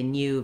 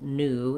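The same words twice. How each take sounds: First: It is said with a British pronunciation. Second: It is said with an American pronunciation. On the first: The speaker calls it wrong. "would be more British English to say new" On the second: The speaker calls it right. "new in American English"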